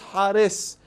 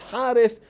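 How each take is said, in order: First: The name ends with an 's' sound. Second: The name ends with a 'th' sound. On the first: The speaker calls it wrong. "instead of Tha, they say Sin" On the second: The speaker calls it right. "his real name is Harith"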